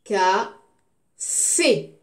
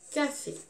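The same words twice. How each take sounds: First: Loud CA, pause, loud FÉ; teacher sounding out "Café" slowly in pieces; syllable by syllable. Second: Said in the usual way. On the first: Shown as a demonstration. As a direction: split "Café" into two separate loud beats. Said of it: "je découpe le mot".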